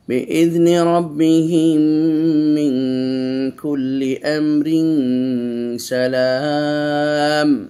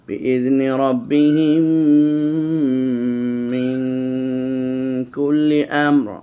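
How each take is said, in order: First: It runs on past 'amr' and stops after 'salam'. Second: It stops right after 'amr' with a pause. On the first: "এভাবে থামতে পারবেন।" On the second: "এনে বললাম"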